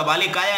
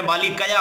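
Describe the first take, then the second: First: बालिकाया with a long "kaa" before "yaa"; बालिकाया, ending "kaa-yaa" as pupils misread it; mistaken long vowel. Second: बालिकया with a short "ka" before "ya"; बालिकया, ending "ka-yaa", not "kaa-yaa"; correct short vowel. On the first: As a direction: stretch the middle vowel in बालिकाया. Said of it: "बहुत सारे बच्चे बालिकाया बोल देते हैं". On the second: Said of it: "बालिकाया नहीं होता है". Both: Shown as a demonstration.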